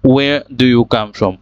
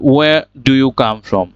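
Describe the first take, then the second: The two takes are said the same way.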